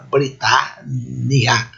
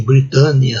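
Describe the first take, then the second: First: Britânia very slow, bri-TAH-N-ni-a; "Britânia" split by syllables, no nasality; open a, double n. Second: Britânia run together with nasal a; "Britânia" as in everyday Portuguese, unsplit; nasal Portuguese pronunciation. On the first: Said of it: "Abrir para evitar nasal". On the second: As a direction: say "Britânia" with a closed nasal a and single n. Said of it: "não pode ser assim". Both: Shown as a demonstration.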